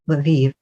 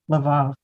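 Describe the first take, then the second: First: The name is one syllable, sounding like Lviv. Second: The name sounds like Laval, two syllables. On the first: This is how Americans say it. "supposedly the American pronunciation is Lviv, which is hilariously not what it should be" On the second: This is how the speaker had been saying it. "This whole time I've been saying Laval"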